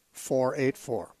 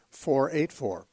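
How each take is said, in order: Both takes have the same delivery.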